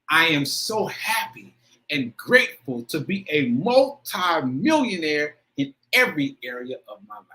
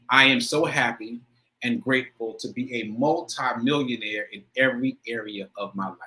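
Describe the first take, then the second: First: It is said with strong, heartfelt emotion. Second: It is said plainly, without much emotion.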